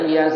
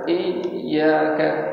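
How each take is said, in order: First: The y sound is short and single. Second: The y sound is held long and doubled. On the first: It means sunlight. The speaker calls it wrong. "tapi dia baca iya saja" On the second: It means only to you. The speaker calls it right. "ditekan iyyaka"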